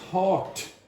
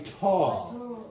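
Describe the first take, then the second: First: The final t sound is clearly heard. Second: The final t sound is dropped. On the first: "She didn't even say thought" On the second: "that t at the end also disappeared"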